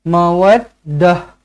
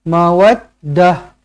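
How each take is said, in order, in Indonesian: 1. Kata ini berakhir dengan bunyi h. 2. Kata ini berakhir dengan bunyi h.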